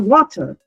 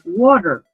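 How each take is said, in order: First: The t is said as a clear t sound. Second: The t is said like a soft r sound. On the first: "and they say" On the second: "we see the T as a R"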